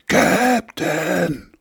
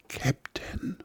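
First: It is shouted as loud as possible. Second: It is called very quietly.

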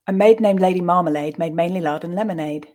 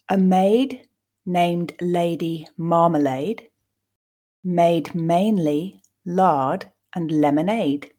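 First: The sentence is said fast and smoothly. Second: The sentence is said slowly and carefully. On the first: "And at a more natural pace" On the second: "let's read it once just to grasp the meaning"

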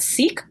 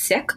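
First: It uses the pronunciation common among some Americans. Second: It uses the pronunciation that differs from the American one. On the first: The speaker calls it wrong. "some folks in America might pronounce that Sikh" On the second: The speaker calls it right. "the correct pronunciation is Sikh"

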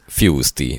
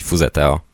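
First: The name is said with English sounds. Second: The name is read out with Hungarian sounds. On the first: The speaker calls it right. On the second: The speaker calls it wrong.

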